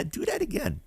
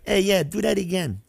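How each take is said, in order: First: A hint of a smiling, softer threat; smirking mock threat. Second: High, smiling mock threat from Frankie; playful but menacing, said with a smirk. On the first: Frankie warning the player, lightly voiced smirk. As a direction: tease it with a smirk. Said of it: "he'd be smiling and smirking". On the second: Frankie teasing the card player, smirking mock threat. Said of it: "in the most funniest way, threatening".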